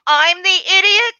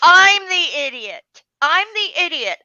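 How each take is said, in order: First: Loud, high incredulous question; indignant retort. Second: Loud, high, falling on IDIOT; indignant retort. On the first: Bookseller retells answering a rude customer, indignant and incredulous. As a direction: throw the insult back as a disbelieving question. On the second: Bookseller retells answering a rude customer, indignantly loud. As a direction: land it as an outraged statement. Acted indignant comeback, repeated. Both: Retold or imitated.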